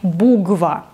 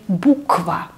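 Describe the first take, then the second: First: The middle consonant is a voiced g. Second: The middle consonant is a voiceless k. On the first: The speaker calls it wrong. "Не буква. Нет" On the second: The speaker calls it right. "И поэтому мы говорим буква"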